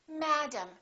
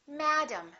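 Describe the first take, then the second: First: The first vowel is stressed, the second reduced. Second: The same.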